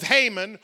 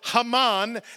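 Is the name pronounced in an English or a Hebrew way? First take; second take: English; Hebrew. First: The name is pronounced the usual English way. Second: The name is pronounced the traditional Hebrew way.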